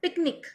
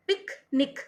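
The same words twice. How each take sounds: First: Said in the usual way. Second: picnic in two separate beats, pik, nik; broken into syllables. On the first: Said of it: "दूसरा". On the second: Shown as a demonstration. Teacher inviting students to try saying it, broken into syllables. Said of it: "बोल के देख लेना आपको".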